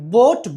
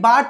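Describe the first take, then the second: First: The vowel is an 'o' sound. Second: The vowel is not an 'o' sound. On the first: The speaker calls it right. "ఓ పలకాలి" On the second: The speaker calls it wrong. "బాట్ కాదు"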